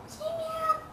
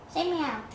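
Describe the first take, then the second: First: Much higher, softer coaxing; little squeaky-high prompt; high kitten-coaxing voice. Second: Said in the usual way. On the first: Pretend. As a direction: coax a kitten in a tiny high voice. Coaxing kitten in rising pitch.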